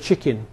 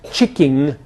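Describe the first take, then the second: First: The word ends in an 'in' sound. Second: The word ends in an 'ing' sound. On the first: "instead of chicken" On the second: "would-be elegant pronunciations such as chicking"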